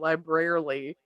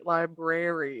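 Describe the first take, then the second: First: The word gets an extra syllable at the end. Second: The word is said with three syllables. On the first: The speaker calls it wrong. "like an extra L" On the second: The speaker calls it right. "no, no, brary, library"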